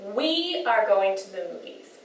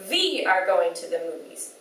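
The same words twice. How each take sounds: First: The word 'we' begins with a rounded W sound. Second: The word 'we' begins with a V sound. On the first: The speaker calls it right. "Make sure you're making those round shapes with your lips" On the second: The speaker calls it wrong. "a V sound by touching their lip to their teeth ... they say"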